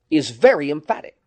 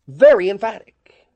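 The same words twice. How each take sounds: First: Said in the usual way. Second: Very emphatic, louder and higher, pressed hard; emphatic repeat. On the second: Shown as a demonstration. Preacher repeating it to the congregation, emphatic. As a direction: hammer home the word Very.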